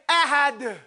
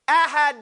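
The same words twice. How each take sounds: First: The final consonant is released loosely, without restraint. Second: The final consonant is bounced while the air is held. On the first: The speaker calls it wrong. "But don't say ahad. That's not no restraint, no something. You went too far" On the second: The speaker calls it right. "I hold it here. I hold my air"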